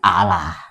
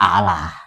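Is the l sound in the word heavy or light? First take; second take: light; light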